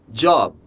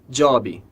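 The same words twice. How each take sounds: First: It ends cleanly on the final b sound. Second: It ends with an added ee vowel sound. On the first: The speaker calls it right. "A palavra job" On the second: The speaker calls it wrong. "costuma ser pronunciada job"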